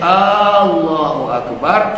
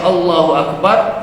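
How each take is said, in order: First: The first vowel of Allah is drawn out long. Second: The first vowel of Allah is short. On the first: It asks whether God is the greatest. The speaker calls it wrong. "Kalaulah kita baca hamzah tu panjang" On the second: It states that God is the greatest. The speaker calls it right. "Kalau asal tadi kita baca"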